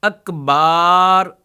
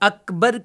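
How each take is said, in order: First: The last vowel is drawn out long. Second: The last vowel is short. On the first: The speaker calls it wrong. "यानी इनको खींचते रहते" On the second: The speaker calls it right. "अकबर की जगह"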